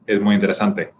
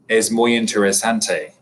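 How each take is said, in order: First: The phrase is spoken quickly with short sounds. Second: The phrase is spoken slowly with stretched sounds. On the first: A native Spanish speaker is saying it. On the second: An English speaker is saying it.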